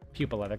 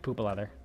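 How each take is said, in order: First: The first word starts with a 'pyoo' sound. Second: The first word starts with a plain 'poo' sound. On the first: The speaker calls it right. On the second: The speaker calls it wrong.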